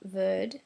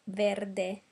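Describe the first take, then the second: First: The word ends without its final vowel. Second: The word ends with a clear final vowel. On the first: The speaker calls it wrong. "it's not verd" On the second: The speaker calls it right. "we pronounce the last E"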